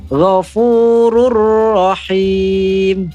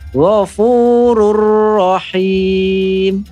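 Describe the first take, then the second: First: The n merges fully into the following r. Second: The same.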